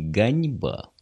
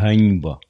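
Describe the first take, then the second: First: The word begins with a hard g sound. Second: The word begins with a breathy h sound. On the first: The speaker calls it wrong. "Только не ганьба" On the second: The speaker calls it right. "а ганьба. Г"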